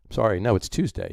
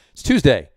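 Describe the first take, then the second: First: "no" stressed as a quick correction, "Tuesday" not stressed. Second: "Tuesday" punched higher and louder; stress on Tuesday. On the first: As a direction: correct yourself by landing on "no". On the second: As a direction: hit "Tuesday" firmly, with a falling tune. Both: Shown as a demonstration.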